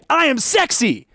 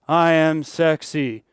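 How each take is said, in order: First: It is said with sincere, convinced conviction. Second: It is said in a reluctant, unconvinced tone. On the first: The speaker believes the words. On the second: The speaker only says it because told to.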